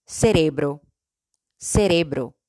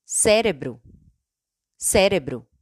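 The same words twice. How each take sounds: First: "cerebro" in Spanish, stressed on RE. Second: "cérebro" in Portuguese, stressed on the first syllable. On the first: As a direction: say "cerebro" as se-REH-bro. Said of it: "En español". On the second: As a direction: say "cérebro" as SEH-re-bru. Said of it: "En portugués". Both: Shown as a demonstration.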